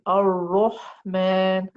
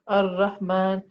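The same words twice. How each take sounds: First: The r sound is heavy and full. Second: The r sound is light and soft. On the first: The speaker calls it right. "I want to make it heavy. So I will say Ar-Rahman" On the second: The speaker calls it wrong. "That's incorrect because the ra is soft"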